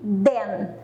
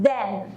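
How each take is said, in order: First: The first sound is close to a D. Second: The first sound has the tongue between teeth. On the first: The speaker calls it wrong. "Que som é parecido com o D. Muita gente fala essa palavra aqui" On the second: The speaker calls it right. "A língua tem que ir para o meio dos dentes"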